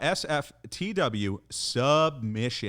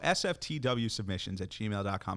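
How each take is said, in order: First: It is said in a put-on R&B singer voice. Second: It is said in his normal speaking voice.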